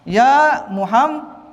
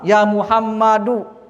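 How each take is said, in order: First: The name ends in an 'un' sound. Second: The name ends in a plain 'u' sound. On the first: The speaker calls it wrong. "Ini tanwin, ini salah" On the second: The speaker calls it right. "Dibacanya domah, tidak tanwin"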